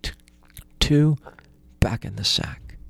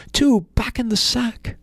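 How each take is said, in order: First: Hushed whisper with a false start; whispered command. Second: Much higher, strained panicked stammer; frightened stammer. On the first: Calm command to stop sticks. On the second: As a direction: blurt it out in a panic under the blows. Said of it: "Ivan the Poor stammered". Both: Acted.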